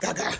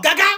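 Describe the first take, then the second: First: The pitch falls across the word. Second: The pitch rises across the word. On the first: "The sound goes down" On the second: "The sound goes up"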